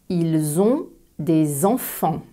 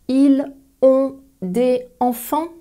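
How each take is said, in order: First: Final s sounds link into the following vowels. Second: The words are said separately, without linking. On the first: The speaker calls it right. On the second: The speaker calls it wrong.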